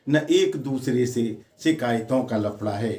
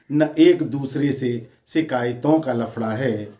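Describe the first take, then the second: No difference in how they are said.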